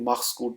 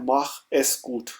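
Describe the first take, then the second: First: 'Es' is reduced and joined to 'mach'. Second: 'Es' is said as a separate syllable. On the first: "जब आप इसको ज्वाइन करेंगे तो ये माख्स कूट बन जाएगा" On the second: "इसका मतलब है माख एस कूट"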